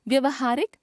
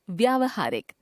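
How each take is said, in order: First: व्यवहारिक with short "vya"; mispronounced first syllable. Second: Said in the usual way. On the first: Shown as a demonstration. Teacher showing a common error, व्यवहारिक with short first vowel. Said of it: "अशुद्ध". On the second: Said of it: "शुद्ध".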